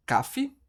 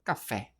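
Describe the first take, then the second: First: "cafe" stressed on high CA, weak ending; stress on first syllable. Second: "café" lower, stressed on final FÉ; stress on last syllable. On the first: Teacher testing the wrong stress for students, "cafe" stressed on CA. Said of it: "A gente fala". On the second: Teacher offering students the right stress, "café" stressed on FÉ. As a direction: say "café" with a strong, open FÉ. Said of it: "ou a gente fala". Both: Shown as a demonstration.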